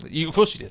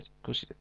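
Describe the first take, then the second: First: Said in the usual way. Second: Whispered aside; breathy whispered tease. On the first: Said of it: "teasing repeat". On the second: Real, not acted. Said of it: "teasing repeat, whispered".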